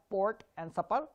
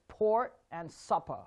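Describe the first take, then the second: First: "port" and "supper" with unaspirated p; hard, airless p in "port" and "supper"; wrong pronunciation. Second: "port" and "supper" slowly, with a puff on the p; breathy-released p in "port" and "supper"; correct aspirated P. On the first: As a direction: say "port" and "supper" without the puff on the p. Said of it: "It's not port and supper". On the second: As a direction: let air burst out on the p of "port". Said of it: "it's port and supper". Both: Shown as a demonstration.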